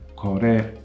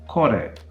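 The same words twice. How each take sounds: First: The pitch rises and stays level, with no drop. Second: The pitch drops within the word. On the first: The speaker calls it right. "These demonstratives have a heiban pitch accent pattern" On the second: The speaker calls it wrong. "Don't say kore, sore. That sounds bad"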